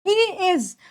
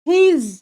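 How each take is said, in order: First: It is said as two separate full words. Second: It is said as one contracted syllable.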